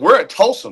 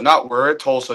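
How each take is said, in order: First: It sounds energetic and enthusiastic. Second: It sounds flat and let down. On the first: Being here is a big deal. The speaker calls it right. "No, it's we're at Tulsa, man. Like this is big time" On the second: Being here is a letdown. The speaker calls it wrong.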